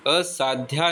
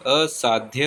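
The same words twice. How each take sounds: First: असाध्या ending in long "dhyaa"; wrong long ending. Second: असाध्य ending in short "dhya"; correct short ending. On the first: Teacher showing the mistake, असाध्या with long final aa. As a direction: stretch the final vowel of असाध्या. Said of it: "असाध्या नहीं होता". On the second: Teacher giving the correction, असाध्य with short ending. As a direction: keep the final vowel of असाध्य short. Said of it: "असाध्य होता है". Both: Shown as a demonstration.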